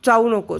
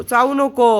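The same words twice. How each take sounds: First: Said in the usual way. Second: चावू नको repeated louder, नको pressed down firmly; second warning with more force, falling hard; firmer louder no. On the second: Real, not acted. Bird keeps biting her. (जास्त मोठ्याने ठाम इशारा)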